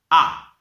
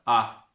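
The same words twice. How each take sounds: First: The vowel is fully open with the mouth wide. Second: The vowel is weak and drifts toward U. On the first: The speaker calls it right. "La lettera A è con la bocca aperta" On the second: The speaker calls it wrong. "è una semia U, però è una A mm, fiacca"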